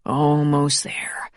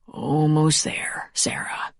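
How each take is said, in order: First: Whisper. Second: Slow, soft whisper. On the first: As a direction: whisper the reassurance again. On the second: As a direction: whisper it to comfort her. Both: A narrator's reading. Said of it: "he whispered".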